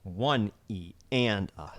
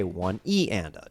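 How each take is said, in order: First: "One" and "and" firm, "E" and "uh" dropped softer; accented One and AND. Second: "E" punched, "One" and "and a" low and soft; accented E. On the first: Teacher showing right-hand counts, stress on ONE and AND. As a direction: lean on "One" and "and", let the others fall. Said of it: "If the accent is on one or the and". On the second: Teacher showing left-hand accents, stress on E. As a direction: hit "E" and drop the other counts. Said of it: "I'm gonna accent the E". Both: Shown as a demonstration.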